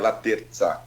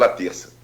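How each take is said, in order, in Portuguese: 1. A consoante antes da vogal final é um som de z. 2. A consoante antes da vogal final é um som de s. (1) "Pela origem da palavra, né, o sobrenome é italiano, seria Laterza, que é com, seria com Z" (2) "é grafado com C cedilha. Igual o dia da semana, então ficou Laterça, é mais usual"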